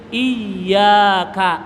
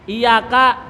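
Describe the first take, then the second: First: The y sound is held and doubled. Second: The y sound is short and single. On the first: It means only to You, O God. The speaker calls it right. "Iya-nya dipakai tas tasdid" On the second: It means sunlight. The speaker calls it wrong. "kalau iya-nya hilang"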